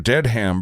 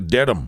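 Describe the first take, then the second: First: The name is said the non-local way. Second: The name is said the local way. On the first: The speaker calls it wrong. "we went through" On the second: The speaker calls it right. "it's actually"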